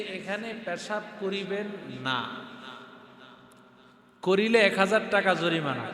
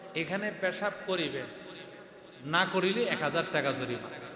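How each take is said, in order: First: The pause comes after 'না'. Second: The pause comes before 'না'.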